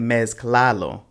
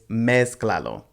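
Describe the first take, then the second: First: The stress is on the second syllable. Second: The stress is on the first syllable. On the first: The speaker calls it wrong. "this isn't mezclalo" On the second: The speaker calls it right. "Pay attention to those accent marks"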